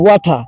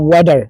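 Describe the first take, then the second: First: It is said in a British accent, no final r. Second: It is said in an American accent, t sounds like d. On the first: "ব্রিটিশে ওয়াটা" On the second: "আমেরিকানরা বলে ওয়াডার"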